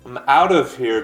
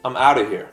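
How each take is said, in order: First: The word 'of' is said with its full v sound. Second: The word 'of' is reduced to a short 'uh'.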